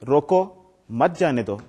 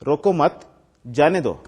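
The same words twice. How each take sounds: First: The pause comes right after 'roko'. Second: The pause comes right after 'mat'. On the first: Stop it and do not let it go. "इसका मतलब है कि इसको रोकना है, जाने नहीं देना" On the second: Do not stop it; let it go. "इसका मतलब है कि आपने नहीं रोकना"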